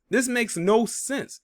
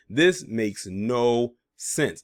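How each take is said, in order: First: Slow, high incredulous rise; high disbelief. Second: Very slow, falling and flat; deadpan repeat. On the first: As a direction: stretch it out, pitch climbing in disbelief. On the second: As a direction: drop it down slowly, done with it. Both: Real, not acted. Repeats line in disbelief.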